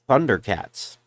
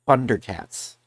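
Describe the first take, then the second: The two takes are said the same way.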